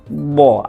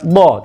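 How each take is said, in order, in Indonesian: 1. Konsonannya dipanjangkan dan ditarik panjang. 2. Konsonannya pendek dan tidak dipanjangkan. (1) "tapi bo. Ada seolah ada jeda karena bunyinya memelar dan memanjang" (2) "bukan bo"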